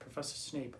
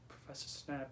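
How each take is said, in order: First: The name has a long vowel, like cape. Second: The name has a short vowel, like cap. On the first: The speaker calls it right. "oh, Snape, not Snap" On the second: The speaker calls it wrong. "I was saying it as Professor Snap"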